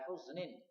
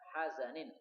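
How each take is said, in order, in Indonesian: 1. Kata ini diucapkan huznin, dua suku kata. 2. Kata ini diucapkan hazanin, tiga suku kata. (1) "wala huznin" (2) "boleh juga dibaca hazanin"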